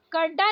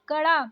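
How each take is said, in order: First: कड़ा with hard ड stop; wrong hard D. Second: कड़ा with flapped ड़; correct flapped ड़. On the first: Teacher showing learners the mistake, hard-D कड़ा. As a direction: say कड़ा with D, no flap. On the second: Teacher correcting learners, flapped कड़ा. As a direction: flick the ड़ in कड़ा. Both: Shown as a demonstration. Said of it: "नहीं".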